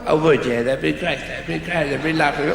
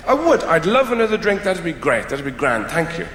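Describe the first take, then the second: First: Put-on caricature of an Irish accent; mocking Irish impersonation. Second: Said in the usual way. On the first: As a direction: mimic an Irish person's accent back at them. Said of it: "they impersonate you as they're talking to you". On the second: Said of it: "They do you".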